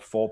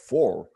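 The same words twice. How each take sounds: First: The word is said in his usual accent. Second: The word is said in a Scottish accent. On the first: The speaker calls it wrong. "is not called four" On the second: The speaker calls it right. "my kids are trying to teach me"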